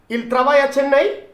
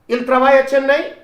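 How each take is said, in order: First: The voice rises at the end. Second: The same.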